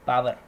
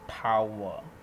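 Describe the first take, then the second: First: The final R sound is clearly pronounced. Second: The final R sound is left silent. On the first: The speaker calls it wrong. "in our common language we say that power" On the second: The speaker calls it right. "R is a bit silent over here"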